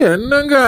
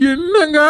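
First: A sobbing plea to her husband; crying call. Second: Said in the usual way. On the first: Acted. Pregnant wife sobbing as she calls her husband. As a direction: cry out his name through tears.

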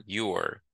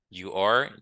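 First: "you're" as one syllable; "you're", the are reduced to an r; contracted form. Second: "You are" as two words, rising; uncontracted "You are", both syllables heard; full form. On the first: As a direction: glide you straight into r for "you're". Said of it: "Ça, c'est forme contractée". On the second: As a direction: sound are fully in "You are". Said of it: "ça, c'est forme complète". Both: Shown as a demonstration.

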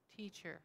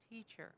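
Both takes have the same delivery.

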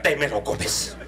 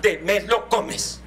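First: Stern mother. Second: Slow stern command. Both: Retold or imitated. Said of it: "mi mamá que decía".

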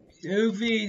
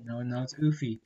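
First: "Oofy" said with more push and a higher pitch; emphatic correction. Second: Said in the usual way. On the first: Real, not acted. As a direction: insist on the name "Oofy".

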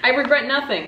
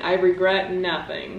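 First: Laughing. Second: Regret stressed, rising at the end. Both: Shown as a demonstration. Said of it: "Once again".

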